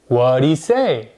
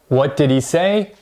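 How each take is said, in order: First: The word 'did' is reduced to a 'd' sound. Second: The word 'did' is said in full.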